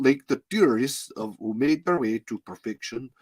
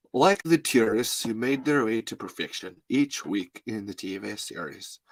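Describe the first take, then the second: First: Put-on lightly Russian-tinged accent; failed accent sliding into Russian; slipping into Russian accent. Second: Put-on lightly accented author reading his book; measured impression of an author reading; Jonathan Melville. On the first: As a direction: try the line but let it drift Russian. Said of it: "can't get the fucking Russian out of my head". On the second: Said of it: "I'm gonna do Jonathan Melville here".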